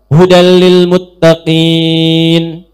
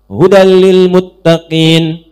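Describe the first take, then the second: First: The final vowel is held about two seconds. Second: The final vowel is held about one second.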